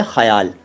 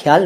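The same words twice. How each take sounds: First: ख्याल said as 'kha-yaal', full first syllable; correct pronunciation. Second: ख्याल said as 'khyaal', kh merged into y; wrong pronunciation. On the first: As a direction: say ख्याल with throaty kh and a vowel before y. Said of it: "वो सही श-, शब्द है ख्याल". (सही उच्चारण, ख्याल में पूरा ख़) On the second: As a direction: show the wrong ख्याल with a half kh. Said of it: "ख्याल नहीं है". (ग़लत उच्चारण, ख्याल में आधा ख) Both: Shown as a demonstration.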